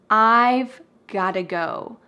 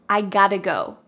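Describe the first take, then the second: First: 'I have' is contracted and 'got to' reduced. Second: 'Have' is dropped and 'got to' is reduced. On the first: "we make a contraction with I have" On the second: "we cut out the verb have completely"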